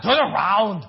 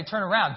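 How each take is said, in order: First: Loud Austrian-accented action hero; put-on Austrian accent, forceful; Arnold Schwarzenegger. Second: Said in the usual way. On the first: Shown as a demonstration. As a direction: bark it with a heavy Austrian accent. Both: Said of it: "like Arnold Schwarzenegger would say".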